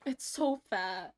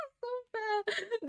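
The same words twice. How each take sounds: First: Said in the usual way. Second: Much higher, slow, laughing "It's so fat"; laughing squeal. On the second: Real, not acted. Laughing at cute drawing.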